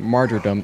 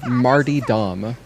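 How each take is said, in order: First: The word begins like 'martyr' and ends 'dom'. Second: The word begins like 'Marty' and ends 'Dom'. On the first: The speaker calls it right. "It wasn't martyrdom" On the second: The speaker calls it wrong. "it was Marty Dom, which was just hilarious"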